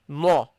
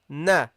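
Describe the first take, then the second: First: The vowel is said with rounded lips. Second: The vowel is said with an open mouth. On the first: The speaker calls it wrong. "don't say no" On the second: The speaker calls it right. "Only open the mouth"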